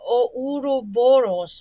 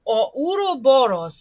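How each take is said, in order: First: Ouroboros sounded out slowly, syllable by syllable; careful attempt. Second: Ouroboros in Serbian, rolled r, open o vowels; Serbian pronunciation. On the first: Struggling with the word, slow careful Ouroboros. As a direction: slowly spell out Ouroboros aloud. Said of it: "I cannot pronounce this word". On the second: Showing viewers a Serbian Ouroboros. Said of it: "how a Serbian would pronounce". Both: Shown as a demonstration.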